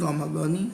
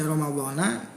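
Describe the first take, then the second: First: The word ends with an 'i' vowel. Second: The word ends with an 'a' vowel. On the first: The speaker calls it right. "lapad Ramadan ini dibaca kasroh" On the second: The speaker calls it wrong. "Kalau dibaca Ramadhana menurut secara ilmu nahwu itu kurang tepat"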